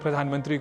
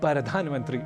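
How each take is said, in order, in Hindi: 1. p और r बिना किसी स्वर के बीच जुड़े होते हैं। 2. p और r के बीच एक छोटा स्वर जोड़ा जाता है।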